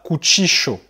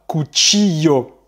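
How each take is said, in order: First: The double L sounds like 'sh'. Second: The double L sounds like 'y'. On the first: This is how it is said in Argentina. "tu vas prononcer comme ça" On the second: This is how it is said in Spain. "en Espagne, le double L va plutôt se prononcer y"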